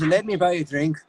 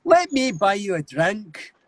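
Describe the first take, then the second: First: Scottish, placed back in the throat; Scottish accent at a quicker, everyday pitch. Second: High, slow, guttural Scottish; Scottish accent. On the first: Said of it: "Scottish to me is more back in". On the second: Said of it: "say a sentence in a Scottish accent". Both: Shown as a demonstration.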